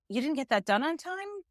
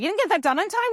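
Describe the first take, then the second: First: It sounds calm and caring. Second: It sounds harsh and angry. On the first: The speaker wants to understand what went wrong. The speaker calls it right. "We must balance compassion and accountability to say" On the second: The speaker is blaming the listener. The speaker calls it wrong. "As opposed to"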